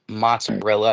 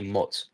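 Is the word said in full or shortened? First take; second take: full; shortened. First: The word is said in full, all syllables. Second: The word is clipped to one short syllable. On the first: This is how others say it. "I don't say mozzarella" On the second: This is how the speaker's region says it. "I say mozz"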